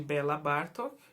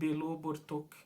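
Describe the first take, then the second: First: The first name ends in an 'a' sound. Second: The first name ends in an 'o' sound. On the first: The speaker calls it wrong. "em vez de Bela Bartok" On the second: The speaker calls it right. "a pronúncia correta seria Belo Bartok"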